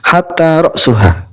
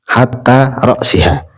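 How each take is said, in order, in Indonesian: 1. Akhiran setelah 'ra's' memiliki vokal u. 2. Akhiran setelah 'ra's' memiliki vokal i. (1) "Hatta ra'suha dibaca rofa" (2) "Jadi hatta ini huruf jar"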